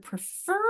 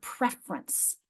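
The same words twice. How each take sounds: First: Prefer with a long, stressed FER; stress on second syllable. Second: Preference stressed on PREF, shortened to two syllables; stress on first syllable. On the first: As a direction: say prefer leaning on the final syllable. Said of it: "So listen to those". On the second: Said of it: "You can hear they're related". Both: Shown as a demonstration.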